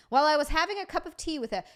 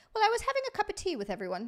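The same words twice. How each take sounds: First: Said in the usual way. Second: High, quick mock British reading; hurried British voice, pitched way up; attempted British accent. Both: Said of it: "should I do this in the British accent".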